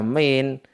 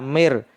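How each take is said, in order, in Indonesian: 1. Kata "min" berakhir dengan bunyi n. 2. Kata "min" berakhir dengan bunyi r. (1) "semestinya dibaca min" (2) "sehingga dibaca mir"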